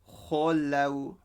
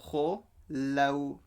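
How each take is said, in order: The two takes are said the same way.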